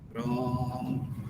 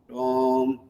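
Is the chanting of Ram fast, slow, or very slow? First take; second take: very slow; slow. First: Ram is repeated even more slowly. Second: Ram is repeated slowly.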